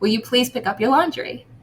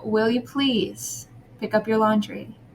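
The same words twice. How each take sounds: First: It is said sharply and roughly. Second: It is said softly, slowly and sweetly. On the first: The listener feels unsafe. The speaker calls it wrong. "Comes out very different than" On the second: The listener feels safe. The speaker calls it right. "if you talk very sweetly and you are, you know, low in your voice, you're kind, you're slow"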